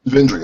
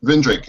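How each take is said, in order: First: "Vindri" with no k, ending on a light ee sound; the name corrected to "Vindri". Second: "Vindrick" with a hard k at the end; name said wrong as "Vindrick"; mispronounced name. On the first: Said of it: "Vindri, I'm sorry". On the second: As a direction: say "Vindrick", ending on a k sound. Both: Real, not acted.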